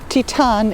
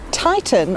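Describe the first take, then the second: First: The name is said with German pronunciation. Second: The name is said with English pronunciation.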